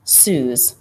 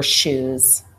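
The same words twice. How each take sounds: First: "Sues" with s for sh, lisped; slushy lisp. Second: Said in the usual way. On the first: Shown as a demonstration. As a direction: say "Sues" instead of "shoes". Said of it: "a lateral lisp". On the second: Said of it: "Sues for shoes".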